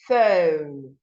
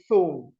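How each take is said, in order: First: The first sound is a teeth-on-lip f. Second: The first sound is not a teeth-on-lip f. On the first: The speaker calls it right. "The word is phone" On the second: The speaker calls it wrong. "we call it phone. That's incorrect"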